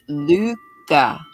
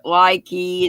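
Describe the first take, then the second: First: It is pronounced like "Luca." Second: It is pronounced like "likey." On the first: The speaker calls it right. "they pronounced it Luca" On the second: The speaker calls it wrong. "I always pronounced it likey, and some folks said that was wrong"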